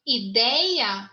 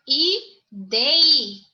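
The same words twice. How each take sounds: First: Said in the usual way. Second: "Ideia" syllable by syllable, stressed second syllable; teacher sounding out "Ideia" in separate syllables, louder on DEI; split into syllables. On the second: Shown as a demonstration. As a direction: break "Ideia" into i, dei, a, punching DEI. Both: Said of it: "o forte é na segunda sílaba".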